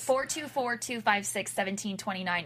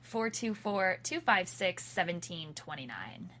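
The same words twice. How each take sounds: First: The number is said at a quick pace. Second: The number is said more slowly.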